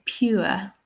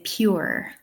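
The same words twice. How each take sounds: First: "pure" as pyoo-uh, no R; RP pronunciation. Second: "pure" in an Irish accent, R sounded at the end; Irish pronunciation. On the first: Teacher imitating the king's RP, "pure" with no R. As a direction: say "pure" the king's way, ending in a schwa. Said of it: "I believe the king would say". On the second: Teacher contrasting her Irish accent, "pure" with R. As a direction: say "pure" slowly, ending on a clear R. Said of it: "I would say pure". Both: Shown as a demonstration.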